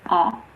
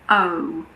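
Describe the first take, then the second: First: The vowel is short, as in cod. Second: The vowel is long, as in code. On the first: "cod becomes code" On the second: "is pronounced like the name of the letter"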